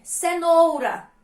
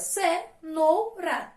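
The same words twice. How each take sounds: First: Said in the usual way. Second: "Cenoura" in three slow, separate syllables. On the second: Shown as a demonstration. Teacher counting syllables for pupils, "Cenoura" split up. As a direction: say "Cenoura" as ce, nou, ra with pauses. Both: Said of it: "E quantas sílabas".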